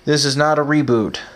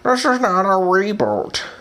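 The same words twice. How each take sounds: First: It is said in the speaker's ordinary voice. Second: It is said in an imitated, put-on voice.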